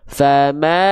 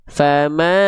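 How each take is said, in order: Both takes have the same delivery.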